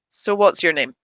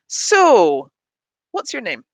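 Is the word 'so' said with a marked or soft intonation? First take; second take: soft; marked. First: The word so has a soft, light tune. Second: The word so has a marked, drawn-out tune. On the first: So links to what came before. The speaker calls it wrong. "I use the softer intonation when it's a linker" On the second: So introduces a new topic as a discourse marker. The speaker calls it right. "If I don't do that intonation"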